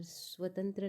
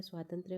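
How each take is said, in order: First: स्वतंत्र with short a after स्व, said as a rejected form; wrong form said. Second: स्वातंत्र्य with long aa after स्व and a final त्र्य; correct form said. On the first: Teacher showing students the wrong form स्वतंत्र. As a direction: say स्वतंत्र as the wrong version, short first syllable. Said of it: "और स्वतंत्र नहीं होता है". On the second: Teacher giving students the correct form स्वातंत्र्य. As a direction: say स्वातंत्र्य carefully as the right version. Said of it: "स्वातंत्र्य होता है". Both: Shown as a demonstration.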